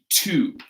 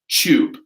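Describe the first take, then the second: First: It starts with a plain hard T sound. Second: It starts with a CH-like sound. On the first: "in American English, we would say with a hard T" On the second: "in British English, they're going to say"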